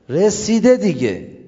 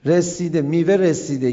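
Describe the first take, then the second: First: Slow, stretched رسیده, louder; drawn-out emphasis. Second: Said in the usual way. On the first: Acted. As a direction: dwell on رسیده دیگه slowly. Emphatic ripe-fruit image. (رسیده را کشیده و محکم بگو)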